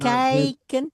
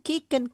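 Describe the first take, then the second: First: The first vowel is a gliding 'ay'-like sound. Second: The first vowel is a long 'ee' sound. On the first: The speaker calls it right. "kijken, bukan kieken" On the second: The speaker calls it wrong. "bukan kieken"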